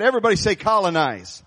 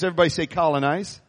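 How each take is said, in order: First: Rallying call to the congregation; more passion. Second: Said in the usual way. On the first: Shown as a demonstration. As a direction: rouse the crowd to repeat it with passion. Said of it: "a little more passion than that". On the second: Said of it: "You say it with a little more passion".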